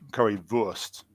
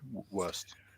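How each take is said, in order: First: The word starts with a V sound. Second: The word starts with a W sound. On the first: The speaker calls it right. "a W in German is pronounced like as, as a V" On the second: The speaker calls it wrong. "rather than"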